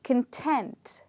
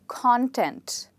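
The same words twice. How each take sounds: First: The stress is on the second syllable. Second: The stress is on the first syllable. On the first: It means being satisfied. "it means satisfied" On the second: It names what something is made up of. "that is a noun which means what is something made up of"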